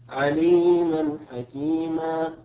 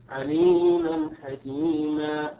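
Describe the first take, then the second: The two takes are said the same way.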